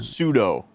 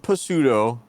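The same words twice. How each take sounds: First: The word starts with an S sound. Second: The word starts with a P sound. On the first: The speaker calls it right. "The P is silent" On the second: The speaker calls it wrong. "Not pseudo"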